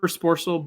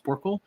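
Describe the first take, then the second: First: The last syllable sounds like 'sel'. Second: The last syllable sounds like 'kle'. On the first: This is the speaker's preferred, habitual form. "I prefer Sporcel" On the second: This is the official form. "the Greek pronunciation or whatever is, is Sporkle"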